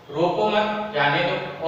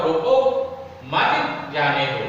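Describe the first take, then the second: First: रोको मत run together, then जाने दो; group रोको मत as one phrase; pause after मत. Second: रोको by itself, pause, then slow मत जाने दो; pause after रोको. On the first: Teacher contrasting two readings, रोको मत kept together before जाने दो. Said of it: "हमने कहा रोको मत यानी रोकना". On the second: Teacher contrasting two readings, clear break after रोको before मत जाने दो. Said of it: "कि रोको यानी रोकना है". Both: Shown as a demonstration.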